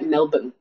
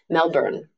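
First: The word is said without an R sound. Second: The word is said with an R sound. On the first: The speaker calls it right. "Australians say straight up" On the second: The speaker calls it wrong. "They taught me that because I was saying"

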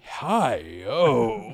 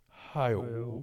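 First: It is said in a flirtatious, admiring way. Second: It is said in a sad, mournful way. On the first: An attractive woman has been spotted. "what if he sees a lady like" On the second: A friend has died. "if one of his friends passes away, he's like"

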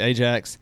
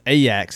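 First: The J has the usual American English sound. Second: The J has a different, Dutch sound. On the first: The speaker calls it wrong. "I know that we would say Ajax" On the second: The speaker calls it right. "but it's Ajax, isn't it?"

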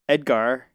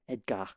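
First: The name is pronounced the English way. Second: The name is pronounced the French way.

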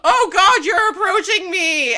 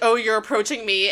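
First: It is said in a panicked, frightened voice. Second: It is said coolly, in a JoJo voice.

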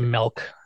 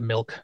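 First: Milk is said with the local regional pronunciation. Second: Milk is said with a standard pronunciation. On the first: This is how people in the region say it. "They say milk" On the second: This is how people elsewhere say it. "instead of milk"

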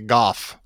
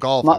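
First: Golf is said the local St Andrews way. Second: Golf is said the usual standard way. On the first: This is how the locals say it. "where they say golf" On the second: This is how it is usually said elsewhere. "instead of golf"

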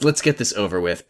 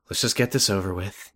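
First: It is said in an aggressive tone. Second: It is said in a calm tone.

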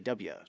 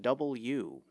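First: The letter is clipped, like dub-ya. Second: The letter is said in full, double-u. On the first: The speaker calls it wrong. "They don't want you to say W" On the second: The speaker calls it right. "you have to say it as a W"

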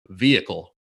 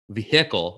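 First: The middle 'hick' part is reduced, not emphasized. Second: The middle 'hick' part is clearly emphasized. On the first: This is a Midwestern or East Coast way of saying it. "vehicle is like a Midwestern thing" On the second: This is a western or southern way of saying it. "where you like emphasize the hick part"

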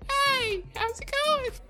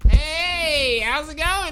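First: It is said in a weenie-type voice. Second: It is said in a redneck-type voice.

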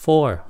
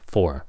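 First: The word is said with a high pitch. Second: The word is said with a low pitch. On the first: The speaker calls it wrong. "Đừng có for" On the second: The speaker calls it right. "nhớ xuống giọng nó for"

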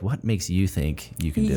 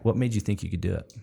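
First: It sounds doubtful and challenging. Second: It sounds curious and friendly.

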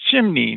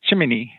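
First: The word is said with two syllables. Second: The word is said with three syllables. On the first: The speaker calls it right. "you do know it's Chimney" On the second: The speaker calls it wrong. "not Chimini"

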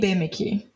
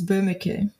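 First: The name is pronounced the Brazilian way. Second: The name is pronounced the German way. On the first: "which is like the Brazilian version of that" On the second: "the way Germans pronounce it is"

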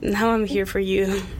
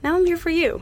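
First: It is said in a wistful, unfriendly tone. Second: It is said in a warm, friendly tone. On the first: The speaker longs for something else. The speaker calls it wrong. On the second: The speaker is glad to be there for the other person. The speaker calls it right.

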